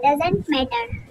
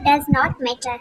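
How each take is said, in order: First: "Does not" is contracted into one syllable group. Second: "Does not" is said as two full words. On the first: "short form में" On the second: "डज नॉट पढ़ते हैं"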